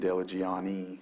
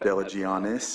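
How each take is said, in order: First: The name ends without any s sound. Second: The name ends with a sounded s. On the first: "I keep saying Delagiani" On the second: "I know it's Delagianis"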